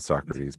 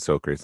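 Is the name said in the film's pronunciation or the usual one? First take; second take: usual; film's. First: The name is said in its usual pronunciation. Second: The name is said in the film's pronunciation. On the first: This is the ordinary name of the philosopher. "not Socrates" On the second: This is what the character is called in the movie. "I know I'm saying Socrates, ... that's what they call him in the movie"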